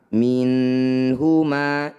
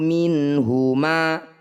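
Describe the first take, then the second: First: The N sound is held long before moving on. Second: The N sound is clear and released quickly. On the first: The speaker calls it wrong. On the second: The speaker calls it right. "Bunyi nun baca jelas"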